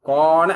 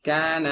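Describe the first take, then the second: First: The ka sound is heavy and rounded. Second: The ka sound is medium, between heavy and light. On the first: The speaker calls it wrong. "கோன அப்படின்னு சொல்லக்கூடாது" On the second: The speaker calls it right. "இது ரெண்டு இடைப்பட்டதா நடுத்தரமா சரியா சொல்லணும்"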